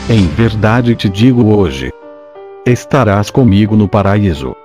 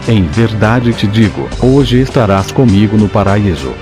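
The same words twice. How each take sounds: First: The pause comes right after the word hoje. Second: The pause comes right after the word digo. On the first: The promise is made today and fulfilled later. "se a vírgula for colocada depois da palavra hoje" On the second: The thief goes to paradise on that same day. "se colocarmos a vírgula depois da palavra digo"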